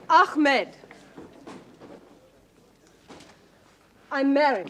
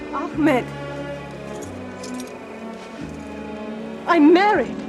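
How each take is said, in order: First: There is a longer pause before 'I'm married'. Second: There is only a short pause before 'I'm married'.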